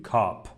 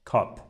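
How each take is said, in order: First: "کاپ" with a full long Persian aa; wrong pronunciation. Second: "کاپ" with a short vowel, not quite aa; correct pronunciation. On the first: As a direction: show "کاپ" with the vowel too open and long. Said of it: "نمیگیم کاپ". (تلفظ نادرست «کاپ» با آی کامل) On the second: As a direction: say "کاپ" like English cup. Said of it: "آ کامل نیست". (تلفظ درست «کاپ» با آی کوتاه و ناکامل) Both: Shown as a demonstration.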